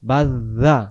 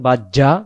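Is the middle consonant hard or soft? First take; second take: soft; hard. First: The middle consonant is soft, from the tongue tip. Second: The middle consonant is hard, like a doubled j. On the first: The speaker calls it right. "জিব্বাটার আগা থেকে" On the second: The speaker calls it wrong. "শক্ত করে উচ্চারণটা করি"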